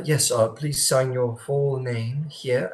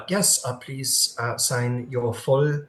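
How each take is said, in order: First: The greeter's line again, slow and not French this time; corrected greeter voice. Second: Put-on a slow greeter's line that drifts into a French accent; the wrong voice: a light French accent, drawn out; slipping French accent. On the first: Acted. Game master redoing the greeter's line to Cross, no French. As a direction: reset to the proper greeter voice, no French accent. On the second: Game master voicing the greeter to Cross, light French accent. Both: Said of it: "wrong accent".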